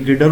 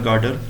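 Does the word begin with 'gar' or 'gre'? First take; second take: gre; gar. First: The word begins with a 'gre' cluster sound. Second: The word begins with a long 'gar' sound. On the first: The speaker calls it right. "ये ग्रेडर होता है" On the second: The speaker calls it wrong. "नाम को थोड़ा सा गलत बोला जाता है"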